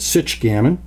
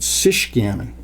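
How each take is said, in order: First: The first word ends in a ch sound. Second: The first word ends in a sh sound. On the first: "pronounce the C H as you would in the word checker" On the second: "as you would in uh, Chicago or Michigan or Chouette"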